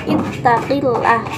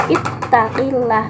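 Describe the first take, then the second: First: Slow "ittaqillah" with the stress on "ittaqi" and a falling end. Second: "Ittaqillah" repeated slowly, "ittaqi" stressed, falling end. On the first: Presenter modelling command-word stress for classmates, "ittaqi" stressed. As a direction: give "ittaqi" the weight, slowly. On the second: Presenter repeating the command example for classmates, "ittaqi" stressed. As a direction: say it once more, leaning on "ittaqi". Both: Shown as a demonstration. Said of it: "Yang diberi tekanan ini kata tuntutan, yakni ittaqi".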